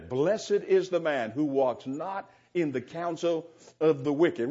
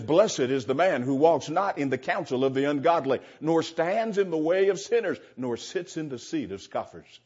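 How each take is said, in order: First: Blessed is the man who walks not in the counsel of the wicked read slowly, each word weighed; slow it right down and dwell on Blessed; slow, weighty reading. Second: Said in the usual way. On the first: Shown as a demonstration. Preacher rereading the verse to his congregation, slow and deliberate. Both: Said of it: "think about that first part there".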